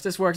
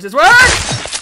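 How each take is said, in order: First: Said in the usual way. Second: High, loud rising cheer; triumphant shout. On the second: Real, not acted. Gamer cheering his own jump, triumphant shout. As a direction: yell it as it finally works.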